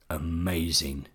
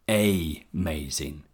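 First: The first vowel is reduced to a weak schwa. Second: The first vowel is given a full sound. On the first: The speaker calls it right. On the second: The speaker calls it wrong.

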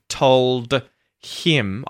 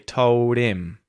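First: The D and H sounds are both clearly pronounced. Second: The D is flapped and the H is dropped. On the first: "instead of saying told him with a clear D and H sound" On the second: "I'll say told him"

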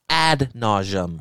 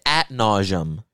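First: The first word ends with a d sound. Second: The first word ends with a t sound. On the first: The speaker calls it right. "It's ad nauseum" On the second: The speaker calls it wrong. "I thought it was always at nauseum"

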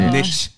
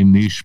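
First: It is said the American way. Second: It is said the non-American way.

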